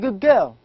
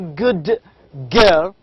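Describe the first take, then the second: First: The word good ends with a g sound. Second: The word good ends with a d sound. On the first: The speaker calls it right. "we shift d into g" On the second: The speaker calls it wrong. "we never say good girl"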